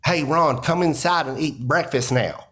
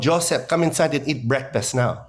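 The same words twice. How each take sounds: First: Lightly voiced Southern mom calling her son in; hint of a Southern accent, mom calling to breakfast. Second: Lightly voiced Filipino mom calling her son in; hint of a Filipino accent, mom calling to breakfast. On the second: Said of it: "my mom going".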